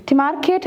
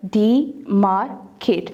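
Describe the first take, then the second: First: Said in the usual way. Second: Demarcate very slowly in three separate beats; long pause after each syllable of demarcate. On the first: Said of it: "three syllable word है". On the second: Shown as a demonstration. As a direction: sound out de — mar — cate. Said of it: "separate the syllables".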